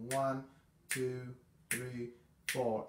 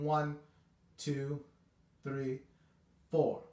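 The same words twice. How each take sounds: First: The count is a bit quicker. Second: The count is slow.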